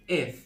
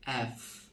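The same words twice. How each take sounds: First: এফ with a closer "e" vowel, as "ef"; England-style letter F. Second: এফ with an open "a" vowel, as "aef"; British-style letter F. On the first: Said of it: "যেটা ইংল্যান্ডে বলে আমরা". (ইংল্যান্ডের উচ্চারণে এফ) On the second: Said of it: "আর British বলে". (British উচ্চারণে এফ) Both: Shown as a demonstration.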